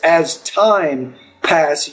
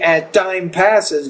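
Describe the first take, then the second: First: The T in time is a clear T. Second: The T in time sounds almost like D. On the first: The speaker calls it right. "so be careful of your T" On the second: The speaker calls it wrong. "you say it almost like a D sound"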